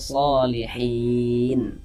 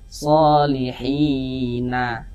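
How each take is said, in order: First: The word ends on the consonant n. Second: The word ends with an added vowel a. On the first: The speaker calls it right. "kita baca solihin" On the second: The speaker calls it wrong. "Jangan dibaca solihina baru berhenti"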